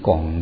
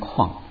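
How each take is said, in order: First: The word is said as gong. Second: The word is said as kuang. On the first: Some people read the character this way. "有念拱的" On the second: Most people read the character this way. "我们好像都念矿"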